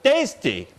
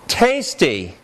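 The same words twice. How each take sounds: First: The first t has no puff of air. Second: The first t has a puff of air. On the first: The speaker calls it wrong. "If I didn't say tasty with aspiration in that first ta" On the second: The speaker calls it right. "Let me show you"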